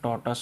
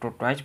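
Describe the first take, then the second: First: The word ends with a short 'tus' sound. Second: The word ends with a 'wise' sound. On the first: The speaker calls it right. "इसका सही pronunciation टॉर्टस होता है" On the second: The speaker calls it wrong. "कुछ लोग इसको टोटवाइज पढ़ते हैं जो कि गलत है"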